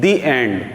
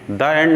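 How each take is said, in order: First: 'The' is said with a long 'ee' vowel. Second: 'The' is said with a short 'uh' vowel. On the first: The speaker calls it right. "Last में हम क्या बोलते हैं, दी एंड" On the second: The speaker calls it wrong. "द end नहीं बोलते"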